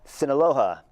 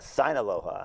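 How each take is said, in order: First: The first syllable sounds like 'see'. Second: The first syllable sounds like 'sign'. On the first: The speaker calls it right. "I pronounced it correctly, right?" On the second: The speaker calls it wrong. "my first guess was"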